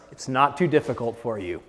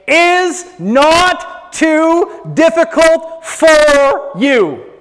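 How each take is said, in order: First: Low, soft and soothing; gentle reassurance. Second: "not too difficult for you" stretched slowly, word by word; emphatic proclamation. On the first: Preacher answering the people's doubts, quietly reassuring. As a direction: drop right down to calm the doubt. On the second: Preacher reading God's command to congregation, slow emphatic proclamation. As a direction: draw out "difficult for you" high and forceful. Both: Acted.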